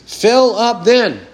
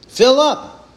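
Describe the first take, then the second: First: "Fill up then." said slowly and deliberately; slow command. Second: "Fill" punched higher as a sharp order; stress on FILL. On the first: Preacher reading Jesus' command to the Pharisees, slow and deliberate. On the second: Preacher repeating Jesus' order to the Pharisees, stressing Fill. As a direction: hit "Fill up." hard, like a command. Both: Shown as a demonstration. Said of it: "an imperatival verb".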